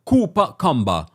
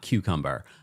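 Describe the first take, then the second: First: It is said in a Jamaican accent. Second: It is said in a standard accent. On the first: "they say uh"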